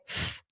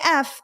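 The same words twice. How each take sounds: First: It is said as a bare hissing sound. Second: It is said as the letter name. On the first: "they would say f" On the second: "They wouldn't say F"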